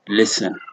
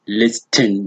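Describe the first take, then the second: First: The t is not pronounced. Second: The t is pronounced. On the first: The speaker calls it right. "but listen" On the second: The speaker calls it wrong. "it is not listen"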